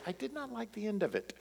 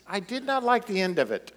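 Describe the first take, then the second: First: Soft, higher, quick quoted catchphrase; family catchphrase. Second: Said in the usual way. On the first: Retold or imitated. Family quotes their movie verdict, soft and quick. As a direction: toss off the family line lightly. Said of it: "we always say". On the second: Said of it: "That's the way I feel about Lamentations".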